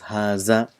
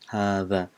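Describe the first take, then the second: First: The middle consonant is a buzzing 'z' sound. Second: The middle consonant is a soft 'th' sound. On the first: The speaker calls it wrong. "In Urdu, it's pronounced as haza, which is wrong" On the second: The speaker calls it right. "it has to be in front of the teeth"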